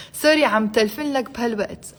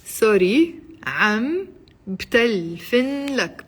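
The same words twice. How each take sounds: First: Quick, run-together Arabic sentence; a bit fast. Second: Very slow, broken into separate words; slowly. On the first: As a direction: say it at natural fast speed. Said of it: "I said it a bit fast". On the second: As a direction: spell it out by ear, pausing between words. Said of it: "I'll say it slowly". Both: Shown as a demonstration.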